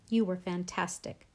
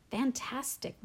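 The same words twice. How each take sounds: First: Said in the usual way. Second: Overcome with emotion. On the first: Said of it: "Mom repeated". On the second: A narrator's reading. Mom echoing dad's praise, mildly overcome with emotion. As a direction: repeat FANTASTIC as if barely able to talk. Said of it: "She was honestly so emotional she could barely talk".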